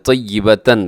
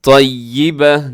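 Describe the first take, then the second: First: The word ends with a full -tan ending. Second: The word ends with a short -ah ending. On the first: The reader continues without stopping. "तन लिखा हुआ है" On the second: The reader stops at this word. "वक़फ़ करेंगे तो... ता को हा से बदल देते हैं"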